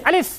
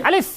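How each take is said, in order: The two takes are said the same way.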